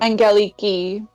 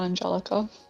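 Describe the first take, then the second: First: The name ends with a 'kee' sound. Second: The name ends with a 'kah' sound. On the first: The speaker calls it right. "it's pronounced Angeliki" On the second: The speaker calls it wrong. "It's it's it's not Angelica"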